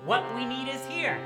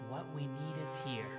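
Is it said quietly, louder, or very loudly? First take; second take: very loudly; quietly. First: It is called out loudly for attention. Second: It is said quietly.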